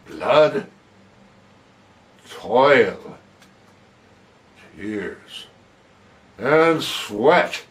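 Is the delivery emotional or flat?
emotional. The words are read with strong emotion. The words carry their full emotional meaning. The speaker calls it right. "there what I've tried to do is to put the appropriate"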